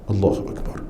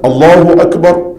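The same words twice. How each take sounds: First: It is said softly, just audible. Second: It is said loudly, in a raised voice.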